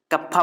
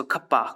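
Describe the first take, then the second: First: Said in the usual way. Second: खप्पा with a breathy kh instead of a plain k; joking mispronunciation. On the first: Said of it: "कप्पा बोलते हैं इसको". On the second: Shown as a demonstration. Teacher jokes with students about the letter name, playful. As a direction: twist कप्पा into खप्पा for a laugh. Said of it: "Ganpati बप्पा मोरया".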